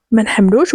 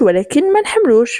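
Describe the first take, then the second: First: Said in the usual way. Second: Higher pitch on "ما نحملوش"; emphatic repeat. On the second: Acted. Sister admitting dislike, "ما نحملوش" pitched up emphatically.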